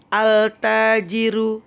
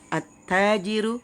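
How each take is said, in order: First: The l sound is pronounced before the t. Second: The l merges into a doubled t sound. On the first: The speaker calls it wrong. "Jangan bacanya gini. ... itu salah ya" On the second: The speaker calls it right. "Tapi langsung masuk"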